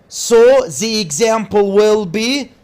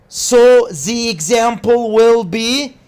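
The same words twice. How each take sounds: The two takes are said the same way.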